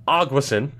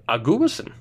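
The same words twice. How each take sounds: First: Aguasin as AHG-wuh-sin, stressed on the first syllable; supposedly obvious pronunciation. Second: Aguasin as ah-GOO-uh-sin, stress on "GU"; alternative pronunciation. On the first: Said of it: "is obviously how you pronounce it". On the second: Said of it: "But it could be". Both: Shown as a demonstration.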